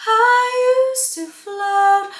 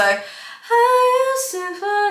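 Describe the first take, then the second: First: "I used to float" sung with an open, rounded mouth. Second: "I used to float" sung with a closed mouth. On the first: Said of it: "Falsetto needs space". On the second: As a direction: keep the mouth nearly shut on "float". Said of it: "it's not gonna work". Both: Shown as a demonstration.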